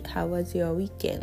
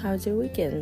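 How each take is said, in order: First: It is said slowly with every word full. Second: It is said fast with was reduced. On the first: "ゆっくり" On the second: "だんだんにHow's your weekend? っていう風になります"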